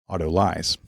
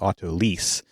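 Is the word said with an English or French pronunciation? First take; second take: English; French. First: The word is said with an English pronunciation. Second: The word is said with a French pronunciation. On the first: "more of the English pronunciation would be autolyse" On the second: "that would be more of the French pronunciation"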